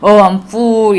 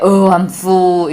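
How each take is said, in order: First: The vowel in full is long. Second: The vowel in full is short. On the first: The speaker calls themselves a fool. The speaker calls it wrong. "나는 바보야 라고 말하는 게 돼요" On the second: The speaker has eaten enough. The speaker calls it right. "저 같은 경우는 아 배불러 라고 이야기할 때 oh I'm full 이렇게 이야기를 하는데요"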